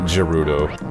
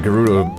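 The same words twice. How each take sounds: First: It begins with a soft G sound. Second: It begins with a hard G sound.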